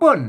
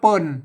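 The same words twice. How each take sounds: First: The syllable is said with a falling tone. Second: The syllable is said with a low tone. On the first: "ใส่ไม่โทเปิ้น" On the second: "เปิ้นเสียงเอกนะครับ"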